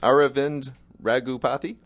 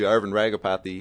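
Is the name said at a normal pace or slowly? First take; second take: slowly; normal. First: The name is said more slowly. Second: The name is said at a normal speed.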